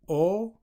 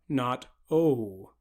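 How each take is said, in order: First: The vowel stays steady without gliding. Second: The vowel glides into an oo sound. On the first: The speaker calls it right. "leave off the oo whenever you say O" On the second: The speaker calls it wrong. "turn O into a diphthong, where we say O and then follow that with an oo"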